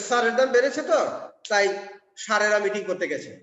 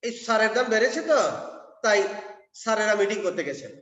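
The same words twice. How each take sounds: First: স্যারের said as sir, swapping স and শ; স্যারেরা said with a palatal sh, swapped sounds. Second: সারের said with a clear dental s, meaning fertilizer; স্যারেরা said with a palatal sh; correct sounds. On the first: Retold or imitated. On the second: Shown as a demonstration. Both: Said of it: "এখন উনি উল্টে ফেলেন".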